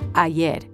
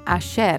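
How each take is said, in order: First: The y is pronounced with a y sound. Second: The y is pronounced with a sh sound. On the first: This is how it is said elsewhere. "instead of" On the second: This is how Argentines say it. "They pronounce their double L's and Y's with a sh sound"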